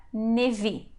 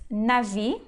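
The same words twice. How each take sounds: First: "Nevi" with the first vowel reduced to E. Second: "navi" with a clear A in the first syllable; full first vowel. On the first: Teacher showing the construct of prophet, "Nevi" with reduced first vowel. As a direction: say "Nevi" with a short sheva E in place of A. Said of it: "então a gente vai falar". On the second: Teacher introducing the word for prophet, "navi" with full A. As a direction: say "navi" with an open A, as the absolute form. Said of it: "nós temos a forma construto". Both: Shown as a demonstration.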